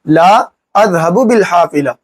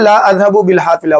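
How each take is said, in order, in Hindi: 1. पहले शब्द के बाद रुकावट है। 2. पहले शब्द के बाद कोई रुकावट नहीं है। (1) "थोड़ा यहाँ पे रुकेंगे, ऐसे कहेंगे" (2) "ऐसे नहीं कहेंगे"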